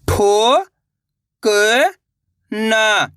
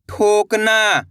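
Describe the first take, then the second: First: ठोकना, drawn out slowly syllable by syllable. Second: Said in the usual way. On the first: Shown as a demonstration. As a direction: sound out ठोकना, one syllable at a time. (अक्षर-अक्षर धीरे) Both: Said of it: "तो मिलके बन जाएगा".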